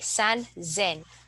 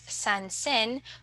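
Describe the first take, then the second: First: The middle consonant is a voiced z sound. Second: The middle consonant is a plain s sound. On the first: The speaker calls it right. "we say sanzen" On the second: The speaker calls it wrong. "instead of sansen"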